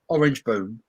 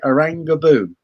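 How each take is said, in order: First: The first word ends with a plain 'j' sound. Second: The first word ends with an added 'a' sound. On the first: The speaker calls it wrong. "everyone took the piss out of me for saying Orange Boom" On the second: The speaker calls it right. "is how you pronounce it"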